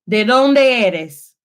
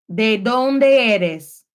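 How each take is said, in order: The two takes are said the same way.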